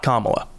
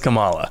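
First: It is said the familiar, common way. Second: It is said a different, unfamiliar way. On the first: This refers to a well-known politician. The speaker calls it wrong. "Not Kamala. ... That is the vice president" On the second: This refers to the planet. The speaker calls it right. "This one is Kamala, and it is spelled C-A-M-A-L-A"

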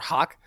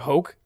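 First: The vowel is an open English aw sound. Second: The vowel is a plain English oh sound. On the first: "Like we would pronounce it or hawk" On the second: "normally you'd say like hoke"

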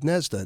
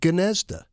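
First: The name begins without any G sound. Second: The name begins with a pronounced G sound. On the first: "people in Ohio just dropped the G... so he just went with Gnezda" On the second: "they always pronounced the G. They pronounced it Gnezda"

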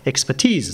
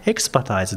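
First: The final syllable sounds like 'teez'. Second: The final syllable sounds like 'tize'. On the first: The speaker calls it right. "アクセントも発音も違う" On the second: The speaker calls it wrong. "エキスパタイズではなくて"

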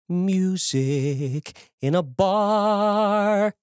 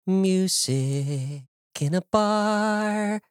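First: The vowel in bar is round and disciplined. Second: The vowel in bar is plain and relaxed. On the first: "If I was singing in musical theater, I'd say" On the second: "if you listen to the finished track, you'll hear that when I say the word bar"

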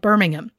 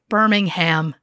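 First: Birmingham is said the British way. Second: Birmingham is said the American way.

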